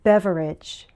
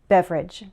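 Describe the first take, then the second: First: The word is said with its full syllables. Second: The word is said with one syllable dropped.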